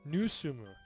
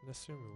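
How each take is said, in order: First: The first vowel is a 'u' sound. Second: The first vowel is an 'e' sound. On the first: The speaker calls it right. "That's why" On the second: The speaker calls it wrong. "Where did I go wrong?"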